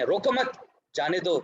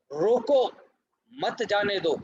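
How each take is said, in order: First: "रोको मत" as one rising phrase, then "जाने दो"; pause after मत. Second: Loud, high "रोको", break, then "मत जाने दो"; "रोको" alone as a command, pause, "मत जाने दो" as one phrase; pause after रोको. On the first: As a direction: join "मत" to "रोको", break before "जाने दो". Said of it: "उसको हम ऐसे पढ़ें". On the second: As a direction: stop firmly after "रोको", keep "मत जाने दो" together. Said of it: "Urdu में ऐसे समझिए". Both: Shown as a demonstration.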